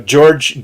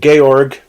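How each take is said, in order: First: The name is said the American way. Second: The name is said the German way.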